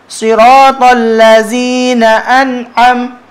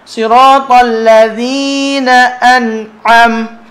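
First: The consonant in ladzina sounds like z. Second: The consonant in ladzina sounds like voiced th. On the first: The speaker calls it wrong. "yang campur dengan zai" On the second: The speaker calls it right. "Zal ni tak ada safir"

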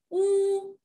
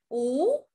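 First: The pitch stays high and level. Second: The pitch rises from middle to high.

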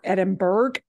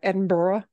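First: It is pronounced in a non-British way. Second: It is pronounced the way British speakers say it. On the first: The speaker calls it wrong. "Not Edinburgh" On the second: The speaker calls it right. "if you're going to be proper, ... but Edinburgh. ... hearing actual Brits saying it"

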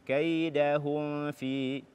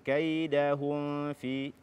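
No difference in how they are said.

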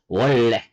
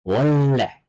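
No difference in how they are said.

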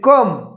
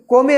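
First: It is one syllable with a short a vowel. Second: It is two syllables with an o vowel. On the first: The speaker calls it right. "या शब्दाचा उच्चार आहे कम" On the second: The speaker calls it wrong. "आपल्या नियमाने हा कम शब्द वाचला तर काय होईल कोमे होईल"

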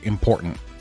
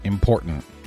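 The two takes are said the same way.

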